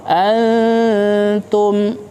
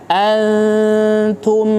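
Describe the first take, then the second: Both takes have the same delivery.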